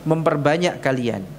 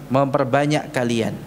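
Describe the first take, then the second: Both takes have the same delivery.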